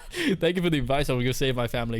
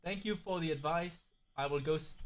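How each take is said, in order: First: Mock-grateful reply through a laugh; amused role-play. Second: Very soft mock-grateful reply; hushed role-play. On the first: Streamer redoes Rick's thanks, laughing. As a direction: laugh into the thanks, at full volume. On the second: Streamer voices Rick thanking for advice, very softly. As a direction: play the grateful viewer, barely audible.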